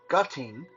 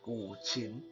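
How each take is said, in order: First: The word ends with a 'ting' sound. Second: The word ends with a 'chin' sound. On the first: The speaker calls it wrong. "all kind of weird uh, pronunciation" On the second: The speaker calls it right. "the proper way to pronounce this is"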